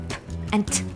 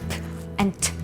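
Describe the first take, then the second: No difference in how they are said.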